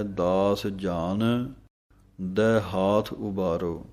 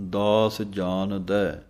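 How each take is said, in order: First: Slow, with a break after ਜਾਨ; ਦਾਸ ਜਾਨ, pause, ਦੈ ਹਾਥ ਉਬਾਰੋ; ਜਾਨ held, then a clear stop. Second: Said in the usual way. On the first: Shown as a demonstration. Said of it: "ਲੇਕਿਨ ਪਾਠ ਵਿਸਰਾਮ ਹੈ". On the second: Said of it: "ਆਮ ਹੀ ਅਸੀਂ ਪਾਠ ਪੜ੍ਹਦੇ ਹਾਂ".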